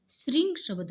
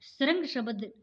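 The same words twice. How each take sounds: First: श्रृंग said as shring, with a clear ri; correct way. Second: श्रृंग said as sarang, with a vowel before r; deliberately wrong श्रृंग, sarang. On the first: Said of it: "श्रृंग शब्द होगा". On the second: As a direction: mispronounce श्रृंग as sə-rang. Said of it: "श्रृंग शब्द नहीं होता है". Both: Shown as a demonstration.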